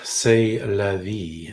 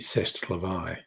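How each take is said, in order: First: It is said with an English accent. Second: It is said with a French accent. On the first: The speaker calls it wrong. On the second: The speaker calls it right.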